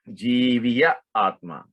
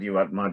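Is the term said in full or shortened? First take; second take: full; shortened. First: It is said in full as two words. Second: It is said shortened as one word. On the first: "the right way to say it is Jiviya Atma" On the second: "But we say Jivatma"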